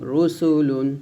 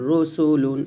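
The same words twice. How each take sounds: The two takes are said the same way.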